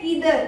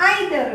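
First: "either" starting with "ee"; EE-ther for "either"; correct pronunciation. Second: "either" starting with "eye"; EYE-ther for "either"; common mispronunciation. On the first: Trainer correcting learners, correct pronunciation. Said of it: "इसे हम लोग बोलते हैं". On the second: Trainer showing learners' habit, mispronunciation. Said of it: "either नहीं होता है". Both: Shown as a demonstration.

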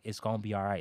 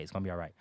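First: A hint of the wife soothing him; gentle reassurance. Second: Quieter repeat of the comfort; wife soothing him again, hushed; softer reassurance. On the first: Wife comforting him in bed. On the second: Retold or imitated. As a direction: fade it down, softer and lower.

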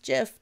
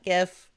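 First: "gif" said as "jif"; "gif" with a soft g, like "gem". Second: "gif" with a hard g; "gif" starting with the g of "go". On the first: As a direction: open "gif" with a j sound. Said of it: "it's pronounced gif". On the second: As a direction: say "gif" like "gift" without the t. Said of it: "it's pronounced gif, not gif". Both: Shown as a demonstration.

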